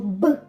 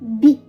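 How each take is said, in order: First: The consonant is hard, not palatalized. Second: The consonant is soft, palatalized.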